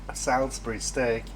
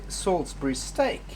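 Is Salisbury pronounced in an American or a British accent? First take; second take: American; British. First: Salisbury is pronounced with an American accent. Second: Salisbury is pronounced with a posh British accent. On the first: "if you're from the U S" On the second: "if you're posh from England"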